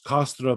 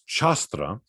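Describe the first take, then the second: First: The word begins with a hard k sound. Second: The word begins with a ch sound. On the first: This is the older classical Latin pronunciation. "in classical Latin, the C is pronounced like a K" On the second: This is the later medieval Latin pronunciation. "came to be pronounced as a ch"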